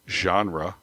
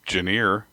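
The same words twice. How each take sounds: First: The word is said with its usual pronunciation. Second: The word is sounded out as it looks written. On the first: The speaker calls it right. "instead of genre" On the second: The speaker calls it wrong. "I used to say it genre"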